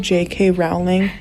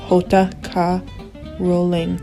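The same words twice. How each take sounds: First: The name is said with English pronunciation. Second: The name is said with Spanish pronunciation. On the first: "you call" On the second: "Spanish people, you guys are on another level when it comes to name pronunciations"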